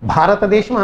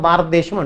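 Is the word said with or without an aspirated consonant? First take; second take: with aspiration; without aspiration. First: The aspirated consonant is said with aspiration. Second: The aspirated consonant is said without aspiration. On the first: The speaker calls it right. "భారతదేశం అనాలి" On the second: The speaker calls it wrong. "అక్కడ ఒక మహాప్రాణం చంపేసావు నువ్వు"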